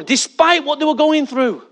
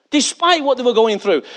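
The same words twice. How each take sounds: First: Despite stressed, then a falling tune. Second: Despite stressed and falling again. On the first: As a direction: lean on despite. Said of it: "repeated with emphasis". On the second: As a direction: land on Despite. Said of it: "repeated phrase". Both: Shown as a demonstration.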